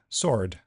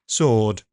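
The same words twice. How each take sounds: First: A shorter vowel followed by an r sound. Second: A long vowel with no r sound. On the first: "the American version had the same vowel and r" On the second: "the British version had long or and no r"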